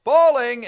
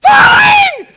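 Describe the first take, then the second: First: Loud, high warning call up the rope; holler warning. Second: Screaming very high and loud, full panic; panicked scream. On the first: Shown as a demonstration. Climber warning the belayer above, loud holler. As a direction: call it out clearly so the man above hears. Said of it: "you're supposed to holler". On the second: Retold or imitated. Climber slipping fifty feet up, screaming in panic. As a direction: shriek it as the boots give way. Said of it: "So I holler".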